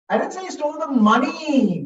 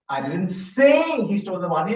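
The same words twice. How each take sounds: First: The word "money" carries the main stress. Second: The word "say" carries the main stress. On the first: He may have taken something else. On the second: It was only suggested, not said. "I only suggested"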